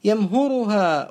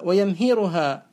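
First: يمهرها said slowly as yamhuruha; damma form. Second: ويمهرها said slowly as wa-yamhiruha; kasra form. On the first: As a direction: put a u after the h in يمهرها. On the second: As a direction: put an i after the h in ويمهرها. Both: Shown as a demonstration. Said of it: "مشهور بالضم والكسر".

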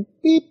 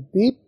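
First: Imitated high pip with a rise; a high cue tone said as pip; high beep. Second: A middle cue tone said as pip; medium beep. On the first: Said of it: "یا high tone سنائی دی گئی". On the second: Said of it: "یا medium tone سنائی دی". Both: Shown as a demonstration.

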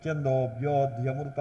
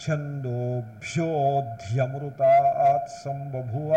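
First: "ఛందోభ్యోధ్యమృత" with its aspirates lightly glossed over; lightened aspirates. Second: "ఛందోభ్యోధ్యమృతాత్ సంబభూవ" drawn out slowly, aspirates fully pressed. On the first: Teacher showing the faulty way, "ఛందోభ్యోధ్యమృత" said with too little effort on the aspirates. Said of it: "అలాగే తేల్చి పలకడం కుదరదు". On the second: Teacher demonstrating a Vedic line, "ఛందోభ్యోధ్యమృతాత్ సంబభూవ" said slowly with full aspiration. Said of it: "ఒత్తి పలకాల్సి వచ్చినప్పుడు ఒత్తి పలకాలి". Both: Shown as a demonstration.

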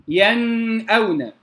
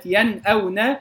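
First: ينأون with the noon hummed long before the hamza; over-held ghunna. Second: ينأون with crisp noon, no held hum; clear izhar. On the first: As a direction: wrongly drag the nasal noon in ينأون. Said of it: "لا أقول". (مد غنة النون خطأً في ينأون) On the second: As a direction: give ينأون a clean still noon before the hamza. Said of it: "كذلك في كلمة". (إظهار النون في ينأون) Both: Shown as a demonstration.

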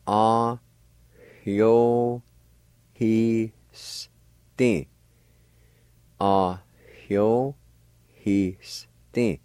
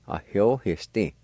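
First: "Ah, hyo, he, sti" slowly, syllable by syllable, faint H before the y; faint H sound. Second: Said in the usual way. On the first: Shown as a demonstration. Teacher showing learners "hyo" with a faint H, slow separate syllables. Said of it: "faint H sound like this". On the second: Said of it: "Gradually speed up your pronunciation".

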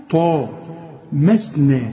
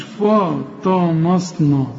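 First: "فطمسنا" very slowly, light fa, heavy ط, thin "masne"; slow careful "فطمسنا", only ط thick; correct light letters. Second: "فطمسنا" slow, every vowel dark and rounded; drawn-out, over-thick "فطمسنا"; wrong heavy letters. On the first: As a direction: spell out "فطمسنا" by syllable, light vowels. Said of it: "ما تقوليش فطمسنا". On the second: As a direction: mistakenly say "فطمسنا" as "fo-to-mosno". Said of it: "كلها خطأ". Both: Shown as a demonstration.

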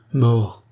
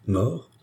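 First: "Mort" falling, as a firm confirmation; firm repeat. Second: "Mort?" rising as a startled question. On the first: Charny confirms the death to Biot, "Mort" firm and falling. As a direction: repeat "Mort" with finality, pitch dropping. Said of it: "répéta Charny". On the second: Biot startled by Charny's news, "Mort?" as a rising question. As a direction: ask "Mort?" with a lift, taken aback. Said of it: "s'écria Biot, en tressauillant malgré lui". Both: A narrator's reading.

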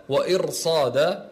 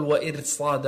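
First: وإرصاد slowly, with a full r; correct heavy Ra. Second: وإرصاد with a thin, light r; wrong light Ra. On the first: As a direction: thicken and hold the r in وإرصاد. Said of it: "لا تقل وإرصاد". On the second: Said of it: "لا تقل". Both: Shown as a demonstration.

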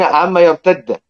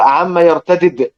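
First: يرتد with one doubled d, "yartadd"; idgham, merged. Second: يرتدد with two separate d sounds, "yartadid"; izhar, unmerged. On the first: Teacher contrasting readings for students, يرتد with merged double d. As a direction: merge the two dals of يرتد into one held d. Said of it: "فلان يقرأ بالإدغام". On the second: Teacher demonstrating izhar to students, both d's of يرتدد pronounced. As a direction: slowly sound both dals of يرتدد apart. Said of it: "بالإظهار". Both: Shown as a demonstration.

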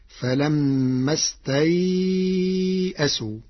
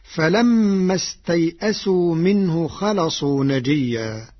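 First: استيئسوا with ay held four counts; slow, stretch the ay in استيئسوا before the hamza; medium leen lengthening. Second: استيئسوا with a short ay before the hamza; usual short leen. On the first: Teacher shows Warsh's reading, long held ay in استيئسوا. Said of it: "بقدر أربع حركات". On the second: Teacher cites the verse before explaining, short ay in استيئسوا. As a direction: pass through the ay of استيئسوا without stretching it. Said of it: "بتوسط اللين في كلمة استيئسوا". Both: Shown as a demonstration.

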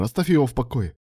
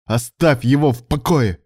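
First: Said in the usual way. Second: "Оставь его в покое!" shouted louder and slower, "его" hit hard; furious order, dragged out; exploding. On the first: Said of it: "Оставь его в покое! взорвался". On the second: A narrator's reading. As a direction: blow up and slam each word. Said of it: "взорвался Илья".

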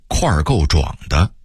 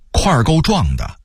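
First: 块儿够壮的 with 壮 as zhuǎng; dipping tone on 壮 in 块儿够壮的; Beijing-style 块儿够壮的 without a falling 壮; Beijing dialect reading. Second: Said in the usual way. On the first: Shown as a demonstration. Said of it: "北京话说". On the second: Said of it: "北京话说块儿够壮的".

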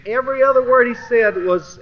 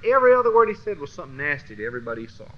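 First: Every other word, raised loud and high; an emphatic raised opener. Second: Rattled off fast; quick tumbling list of insults; fast run-on. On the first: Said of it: "repeats the phrase, first take loud". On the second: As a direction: rush through the line fast. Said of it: "repeats the phrase, second take fast". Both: Real, not acted.

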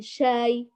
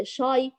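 First: شاي with thin front aa; clear, unthickened shaay for شاي; light correct shin. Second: شاي with thick backed aa; emphatic vowel in شاي; heavy wrong shin. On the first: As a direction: slowly model a light شاي. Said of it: "بل شاي". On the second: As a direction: darken شاي like shaw-y. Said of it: "فلا نقول". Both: Shown as a demonstration.

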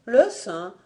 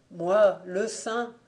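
First: Startled echo, quicker than the weary answer; taken aback. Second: Slow, weary answer from afar; faint, exhausted voice. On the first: Fanta echoing the voice from the well, taken aback. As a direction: repeat it in astonishment. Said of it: "fit-elle interloquée". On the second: Saint answering Fanta from the well, faint and exhausted. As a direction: drag the words out as if worn out. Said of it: "Une voix faible, exténuée, lointaine". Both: A narrator's reading.

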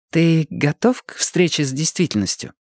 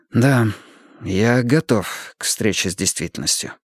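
First: Higher-pitched question to the learner; вопрос Марты. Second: Ответ с выражением. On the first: Acted. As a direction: put the question in her higher voice. Martha's question, echoed in answer. (вопрос повыше, женским голосом) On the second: A narrator's reading. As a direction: answer meaningfully, falling away at the end. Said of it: "он заявил с выражением". (ответ с выражением, пониже)

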